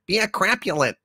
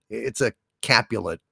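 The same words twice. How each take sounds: First: "Capulet" said as "Crapulet"; mispronounced Capulet. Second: "Capulet" said without an R, CAP-yu-let; corrected pronunciation. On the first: Sidekick as Juliet misreading the name, "Capulet" as "Crapulet". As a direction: put an R after the C in "Capulet". Misreads word, gets corrected next. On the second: Host correcting sidekick's reading, "Capulet" without R. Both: Acted.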